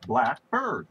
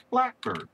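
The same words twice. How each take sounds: First: "black bird" slowly, "bird" stressed. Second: "blackbird" with the stress on "black". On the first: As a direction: say "black bird" as two words. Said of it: "that's two words". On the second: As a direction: say "blackbird" as one word. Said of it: "that's one word". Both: Shown as a demonstration.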